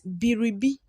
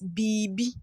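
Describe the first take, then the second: First: The R sound is clearly pronounced. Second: The R sound is dropped entirely. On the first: "That is how we write it" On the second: "in pronunciation, we we pronounce it as"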